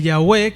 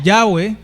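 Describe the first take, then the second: First: Yahweh stressed on the second syllable; alternate pronunciation. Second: Yahweh stressed on the first syllable; alternate pronunciation. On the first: Preacher shows one way the divine name is said, Yahweh as ya-WEH. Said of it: "de repente lo pronuncian así". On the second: Preacher offers another way to say the divine name, Yahweh as YAH-weh. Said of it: "lo pronuncian así, o de". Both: Shown as a demonstration.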